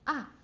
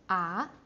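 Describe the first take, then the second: First: The pitch drops sharply from high to low. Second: The pitch climbs upward from mid to high. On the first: "like a bungee jump" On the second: "you go up and climb up"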